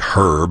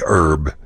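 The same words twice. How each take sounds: First: It is said British style, with the h sounded. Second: It is said Texan style, with the h dropped.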